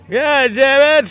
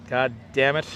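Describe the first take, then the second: First: Put-on high, loud, slow old man voice. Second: Said in the usual way. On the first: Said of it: "me doing the old man voice all the time". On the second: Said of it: "me doing the old man voice".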